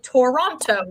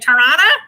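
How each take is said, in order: First: The second T is clearly pronounced. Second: The second T is dropped. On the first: It is read as spelled by outsiders. "you saw the word Toronto, you'd be like" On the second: It is the way locals say it. "you should pronounce the T's that are there, and we're just like"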